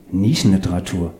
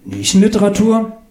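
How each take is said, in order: First: Said in the usual way. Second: Nischenliteratur as a high, rising question; puzzled echo. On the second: Acted. Claudius echoes the author, Nischenliteratur high and questioning.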